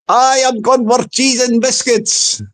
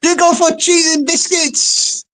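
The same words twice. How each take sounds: First: Lightly Scottish troll, deliberate; Scottish accent. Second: High-pitched lady's voice; Missus John O'Groats. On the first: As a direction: answer back with a touch of Scots. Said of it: "He sounds like a blooming Scotsman". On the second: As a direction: repeat it high, as the innocent lady. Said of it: "Missus John O'Groats says". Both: Acted.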